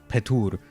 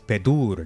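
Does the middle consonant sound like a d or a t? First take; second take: t; d. First: The middle consonant is a voiceless t sound. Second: The middle consonant is a voiced d sound. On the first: This is the non-Western dialect form. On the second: This is the Western Armenian form.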